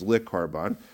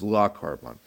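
First: The first vowel is short and reduced. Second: The first vowel is a full 'a' sound. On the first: "he's saying it with a shva" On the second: "with a patach or a kamat"

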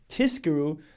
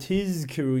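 First: The middle consonant sounds like a voiceless s. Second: The middle consonant is a clear voiced z. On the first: The speaker calls it wrong. "If you say it quickly, it sounds like tizkiru" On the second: The speaker calls it right. "you have to properly stress on the zayin"

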